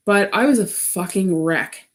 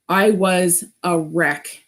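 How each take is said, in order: First: Said in the usual way. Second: Slower, each word weighted; slow emphatic repeat. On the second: Real, not acted. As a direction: drag it out to let it land.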